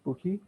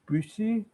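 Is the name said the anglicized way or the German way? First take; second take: anglicized; German. First: The name is said with plain English sounds, like Booky. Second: The name is said with the German vowel and ch. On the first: "everyone just calls it Buki" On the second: "the original German pronunciation is Büchi"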